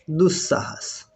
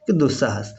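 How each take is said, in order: First: दुस्साहस with a long held double s in the middle; doubled s demo. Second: Said in the usual way. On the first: Shown as a demonstration. Teacher spelling out the sandhi result दुस्साहस for students, the ss held long. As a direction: lean on the ss in दुस्साहस, falling at the end. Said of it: "ये बन जाता है क्या". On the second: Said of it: "है ना".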